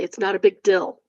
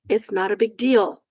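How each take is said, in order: First: The last word has a short 'i' vowel. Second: The last word has a long 'ee' vowel. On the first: The speaker calls it wrong. "They say it's not a big dill" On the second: The speaker calls it right.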